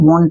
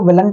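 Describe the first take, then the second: First: The vowel changes to a long o sound. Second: The vowel of will is kept before n't. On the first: The speaker calls it right. "वॉन्ट बोलते हैं" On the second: The speaker calls it wrong. "विल plus not को विलंट नहीं बोलते हैं"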